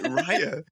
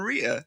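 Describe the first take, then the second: First: The first syllable sounds like 'rye'. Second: The first syllable sounds like 'ree'. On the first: The speaker calls it right. "Nope, it's like Raya" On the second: The speaker calls it wrong. "I'd been calling her in my head Rhea"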